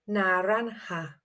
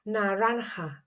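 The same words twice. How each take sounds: First: The middle consonant is a soft, gentle sound. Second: The same.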